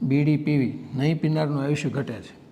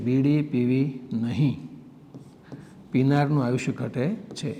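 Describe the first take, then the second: First: It runs on with no pause after નહીં. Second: There is a pause right after નહીં. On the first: Non-smokers' lifespan decreases. The speaker calls it wrong. "કેવો ખોટો message જાય સમાજમાં એક વિરામ ચિહ્નને કારણે" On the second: Don't smoke; smokers' lifespan decreases. The speaker calls it right. "એ શુદ્ધ છે"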